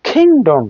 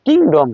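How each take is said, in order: First: কিংডম higher, opening like খ; aspirated K. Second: কিংডম with a plain K, no puff; unaspirated K. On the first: Teacher correcting kingdom, aspirated কিংডম. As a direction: puff the K of কিংডম, pitch up. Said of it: "খর মতো উচ্চারণ হবে". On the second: Teacher showing the wrong take, unaspirated কিংডম. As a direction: keep the K of কিংডম breathless. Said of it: "রাজ্য না". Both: Shown as a demonstration.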